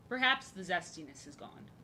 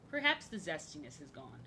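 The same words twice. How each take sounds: The two takes are said the same way.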